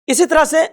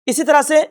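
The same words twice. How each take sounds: The two takes are said the same way.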